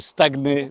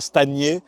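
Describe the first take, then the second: First: The 'gn' is said as a separate g and n. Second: The 'gn' is said as one 'ny' sound. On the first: The speaker calls it right. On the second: The speaker calls it wrong.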